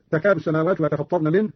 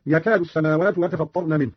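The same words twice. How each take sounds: First: Said in the usual way. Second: "يكاد" opening with y, yakaadu; initial ya. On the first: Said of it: "بالياء على التذكير". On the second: Shown as a demonstration. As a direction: start "يكاد" on a y sound instead of t. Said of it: "قرأ قالون بالياء على التذكير".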